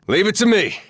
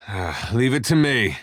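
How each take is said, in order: First: Loud, high, eager call; battle shout. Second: Said in the usual way. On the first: Acted. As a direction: shout it while taking charge in combat. Battle bark, taking charge.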